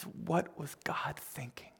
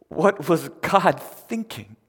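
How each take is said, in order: First: Hushed, slow, near-whispered retelling of tears; understated tearfulness, almost whispered; imitated tearful question. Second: Loud, slow, raised disbelieving question; baffled outcry, each word weighted; acted incredulity. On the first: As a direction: softly voice her tearful disbelief. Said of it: "just in tears". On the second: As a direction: stretch it out in loud bewilderment. Imagines Mary's incredulous question.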